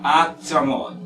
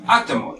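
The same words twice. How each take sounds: First: Actimol broken into separate, even syllables; slow breakdown of actimol. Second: Said in the usual way. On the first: Shown as a demonstration. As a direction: sound out actimol piece by piece. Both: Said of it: "por ejemplo".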